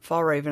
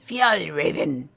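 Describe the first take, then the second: First: The name is said in a calm, plain way. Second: The name is said in an angry-sounding way. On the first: The speaker calls it wrong. "I'm stuck on fall raven at the moment" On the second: The speaker calls it right. "You have to sound kind of mad when you say that"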